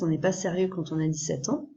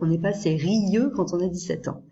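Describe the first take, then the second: First: Sérieux is said in two syllables. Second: Sérieux is split into three syllables.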